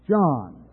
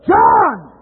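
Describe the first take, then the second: First: The name is said at a moderate volume. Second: The name is said loudly. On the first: "Let's have a practice run so we're not so loud" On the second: "Now let's go a little louder"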